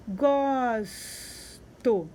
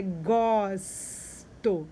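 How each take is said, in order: First: Said in the usual way. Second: "gosto" said very slowly, syllable by syllable; teacher stretching "gosto" to show the S; stretched-out word. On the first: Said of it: "agora não é mais go". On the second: Shown as a demonstration. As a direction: draw out "gosto" so the children hear the S. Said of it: "agora não é mais go, é gosto".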